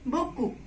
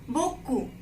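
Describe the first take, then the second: The two takes are said the same way.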